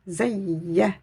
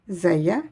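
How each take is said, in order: First: The y sound is doubled and held longer. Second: The y sound is short and single. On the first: The speaker calls it right. "mais je dirais Zayya" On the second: The speaker calls it wrong. "Je ne dis pas Zaya"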